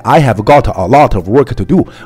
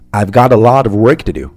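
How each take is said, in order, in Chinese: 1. 每个词都完整、用力地说出来。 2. 大多数词都弱读，并且连在一起读。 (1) "而不是完全甩出来" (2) "而要读成"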